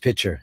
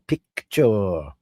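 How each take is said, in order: First: The word is pronounced loosely and sloppily. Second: The word is pronounced crisply and carefully. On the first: The speaker calls it wrong. "smack us on the knuckles if we said" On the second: The speaker calls it right. "his diction was impeccable"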